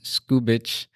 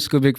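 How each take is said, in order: First: The name is said slowly and carefully. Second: The name is said quickly and casually. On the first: The speaker calls it right. "I made sure I said that correctly, which is why I said it so slowly" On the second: The speaker calls it wrong. "I've been calling him Skubik for a while, so I have to apologize"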